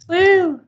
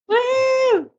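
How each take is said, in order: First: The cheer is said with little enthusiasm. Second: The cheer is said with more enthusiasm.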